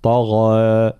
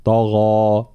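First: طغى with the final alif starting heavy and thinning out; faulty recited طغى, vowel lightened at the end; wrong thinned ending. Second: طغى held slowly with the alif emphatic to its very end; evenly heavy ending. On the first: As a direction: let the end of طغى slide toward a light fronted vowel. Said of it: "ويختمها بنوع من الترقيق أو التقليل". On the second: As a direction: keep the long last vowel of طغى dark throughout. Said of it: "نفس درجة التفخيم". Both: Shown as a demonstration.

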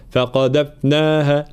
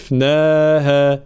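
First: فقذفناها with its still f cut short and lost; wrong unclear fa. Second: Slow فقذفناها with a sustained f before naa; clear flowing fa. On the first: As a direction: choke off the middle f of فقذفناها. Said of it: "ما ظهرناش الفاء الساكنة". (فقذفناها دون إظهار الفاء الساكنة) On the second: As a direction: let the still f of فقذفناها run on. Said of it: "جريان الصوت حال سكون الحرف". (فقذفناها بإظهار رخاوة الفاء) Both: Shown as a demonstration.

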